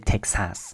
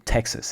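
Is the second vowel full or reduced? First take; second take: full; reduced. First: The second vowel is a full A sound. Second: The second vowel is reduced to a schwa. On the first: "they don't say Texas" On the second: "then they say Texas instead"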